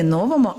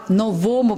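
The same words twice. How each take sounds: First: "новому" stressed on the first syllable, NO-vomu; wrong stress. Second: "новому" stressed on the second syllable, no-VO-mu; corrected stress. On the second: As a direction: hit the middle syllable of "новому". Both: Shown as a demonstration. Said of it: "адже наголос на слово".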